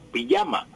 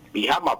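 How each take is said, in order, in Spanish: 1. La consonante del medio es un sonido parecido a la y. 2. La consonante del medio es un sonido gutural parecido a la h. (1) "se pronuncia sin embargo pijama, con Y" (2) "con J"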